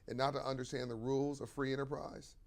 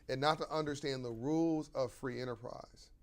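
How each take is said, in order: The two takes are said the same way.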